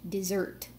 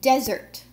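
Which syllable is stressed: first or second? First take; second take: second; first. First: The stress is on the second syllable. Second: The stress is on the first syllable. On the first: Something sweet eaten after a meal. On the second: A dry place with little rain.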